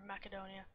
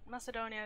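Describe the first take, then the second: First: Macedonia with the C as K; hard C pronunciation. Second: Macedonia with the C as S; soft C pronunciation. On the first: Artist offering the other version, Macedonia with hard C. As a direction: say Macedonia with a K sound in the middle. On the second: Artist unsure of the country's name, Macedonia with soft C. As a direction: say Macedonia with an S sound in the middle. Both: Shown as a demonstration. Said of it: "I always hear them call it Macedonia".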